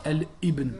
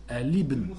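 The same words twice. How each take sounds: First: Al ibn with a stop before ibn; wrong hamza. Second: Al ibn linked as alibn; correct liaison. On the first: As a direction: cut al ibn with a glottal stop. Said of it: "on dit pas". (al ibn avec coup de glotte) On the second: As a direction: join al ibn smoothly. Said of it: "on dit". (al ibn lié) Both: Shown as a demonstration.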